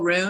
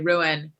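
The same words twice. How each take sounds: First: The word is squeezed into one syllable. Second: The word is spread over two syllables. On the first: "I just pronounced it one syllable" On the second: "every time I go to say that, I say ruin"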